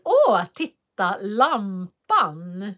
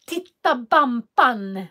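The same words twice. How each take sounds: First: "lampan" said clearly with an l, slow and exaggerated; correct model. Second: "Bampan" said with a b for the l of lampan, drawn out slowly; imitating a toddler saying "Titta Bampan"; child's mispronunciation. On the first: Shown as a demonstration. Parent repeats the word correctly for the child, slowly. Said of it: "upprepar jag efter". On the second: Teacher imitates a small boy's mispronunciation, slow and childlike. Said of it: "han sa så här".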